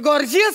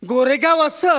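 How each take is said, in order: First: It is said as gorgeous, in one word. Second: It is said like Goregaon asa, in two words. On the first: The speaker calls it right. "ते गॉर्जियस आहे" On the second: The speaker calls it wrong. "हे गोरेगाव असं असं नाहीये"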